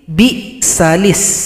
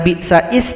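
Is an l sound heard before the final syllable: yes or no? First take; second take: yes; no. First: An l sound is heard before the last vowel. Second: No l sound is heard before the last vowel. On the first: The speaker calls it right. "tapi bi salis" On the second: The speaker calls it wrong. "bukan bi sais"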